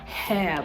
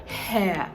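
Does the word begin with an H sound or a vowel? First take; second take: H sound; H sound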